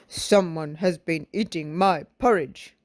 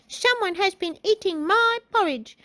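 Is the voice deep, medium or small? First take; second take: deep; small. First: A deep, gruff, cross-sounding voice. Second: A small, high-pitched childlike voice. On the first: A large, angry character speaks. "in his great big cross voice" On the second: A small child character speaks. "in his little baby voice"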